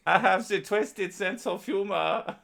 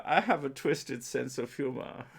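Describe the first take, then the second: First: Very high, loud, slow mock German; exaggerated German accent. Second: Slow, higher mock German voice; German accent. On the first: Streamer repeating follower's quote defiantly, hammed-up German accent. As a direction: ham up the German voice to the limit. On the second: Streamer quoting a German follower, mock German accent. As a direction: quote him in a put-on German accent. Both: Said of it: "This is my German voice".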